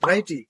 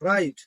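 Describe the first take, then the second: First: An extra vowel sound follows the final t. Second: It ends on the t with no vowel. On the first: The speaker calls it wrong. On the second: The speaker calls it right.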